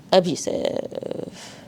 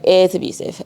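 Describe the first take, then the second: First: "Abusive" whispered slowly and softly, falling at the end; whispered reveal. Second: Said in the usual way. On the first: Shown as a demonstration. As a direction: breathe "Abusive" as a slow hushed answer. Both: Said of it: "It's actually abusive".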